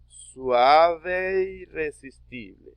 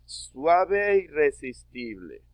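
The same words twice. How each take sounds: First: "Suave e irresistible" drawn out slowly, vowels blended into one; linked slow reading. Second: Said in the usual way. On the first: Shown as a demonstration. Teacher models the blended reading for the class. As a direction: stretch it, a bit louder. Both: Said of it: "Se lee como si fuera una sola sílaba".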